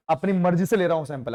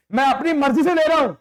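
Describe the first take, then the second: First: Said in the usual way. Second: 1 mock bossy teacher. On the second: Teacher choosing kids himself.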